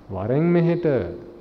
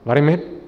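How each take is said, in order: First: It is said in a warm, loving tone. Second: It is said in a harsh, angry tone. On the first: The speaker cares for the listener. "in a very loving way" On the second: The speaker is hostile toward the listener. "Someone that gets into a fight with you says"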